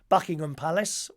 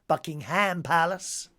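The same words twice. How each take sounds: First: It is said in a British accent. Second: It is said in an American accent.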